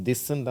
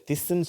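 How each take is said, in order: First: "திஸ்ன்னு" starting with a voiced dh, like English "this"; correct voiced DH. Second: "திஸ்ன்னு" starting with a voiceless th, like "thiss"; wrong unvoiced TH. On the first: Teacher showing what we say, "திஸ்ன்னு" with voiced dh. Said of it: "தான் சொல்றோம்". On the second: Teacher showing what not to say, "திஸ்ன்னு" with unvoiced th. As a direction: say "திஸ்ன்னு" with th as in "thin". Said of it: "சொல்றது இல்ல". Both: Shown as a demonstration.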